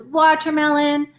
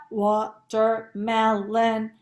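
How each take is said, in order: First: Said in the usual way. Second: "watermelon" in four slow, separate, even syllables; robot syllables. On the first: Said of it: "so everyone says watermelon". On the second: Shown as a demonstration. Teacher modelling robot talk for pupils, "watermelon" in robotic syllables. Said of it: "say it like a robot".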